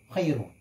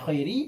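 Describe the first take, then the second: First: The word ends in a u vowel. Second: The word ends in an i vowel. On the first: The word is the predicate of an omitted subject. "dibaca rafa ini lebih bagus, lebih utama" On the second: The word is read in the genitive case. "dibaca jar"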